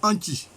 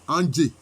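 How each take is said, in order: First: The name ends with a voiceless 'chi' sound. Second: The name ends with a voiced 'djé' sound. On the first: This is the official administrative form. "administrativement, quand on prononce, on dit Anchi" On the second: This is the name's own local form. "c'est Andjé"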